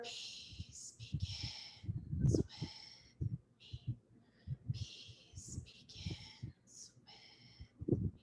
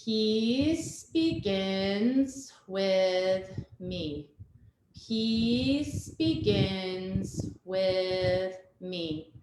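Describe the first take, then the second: First: Slow breathy whisper of the mantra, much softer. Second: Slow, steady chant of the mantra, each word drawn out; chanted out loud. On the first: Yoga teacher having the children whisper the mantra, slow whisper. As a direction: drop to a hush and whisper each word slowly. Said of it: "And then we're whisper". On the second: Yoga teacher leading children through the mantra, chanting it slowly aloud. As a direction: chant it aloud slowly so little ones can follow along. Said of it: "we're gonna say it two times out loud". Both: Shown as a demonstration.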